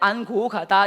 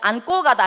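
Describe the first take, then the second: First: The g sound after 안 is plain. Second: The g sound after 안 is tensed. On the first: "이렇게 해?" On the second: "아니면 안고 가다 해? 그렇지. 이거 된소리 되니까"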